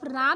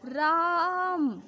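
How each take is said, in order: First: The vowel is said at normal length. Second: The vowel is drawn out for extra time. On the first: "उसने सिर्फ राम नहीं कहा" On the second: "यही प्लुत कहलाएगा"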